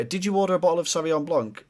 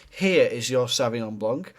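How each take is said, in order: First: Lightly voiced hesitant question; unsure waiter. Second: Slow, sure, settled delivery; confident waiter. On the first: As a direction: ask it as if you're not sure. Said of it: "The difference between going". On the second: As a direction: hand it over like you know your job. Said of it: "The second one, We know what we're doing". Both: Shown as a demonstration.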